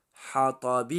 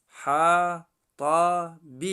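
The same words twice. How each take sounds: First: Said in the usual way. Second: حطب very slowly and louder, syllables apart; slow, loud spelled-out حطب. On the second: Shown as a demonstration. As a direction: stretch each syllable of حطب firmly.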